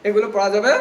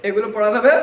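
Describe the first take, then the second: No difference in how they are said.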